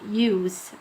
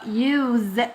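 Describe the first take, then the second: First: The word ends with a hissing s sound. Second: The word ends with a buzzing z sound. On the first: The word is used as a noun. "لو الكلمة دي جاية as a noun فتنطق with s sound" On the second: The word is used as a verb. "لو كلمة use جاية as a verb فهتنطق use with z sound"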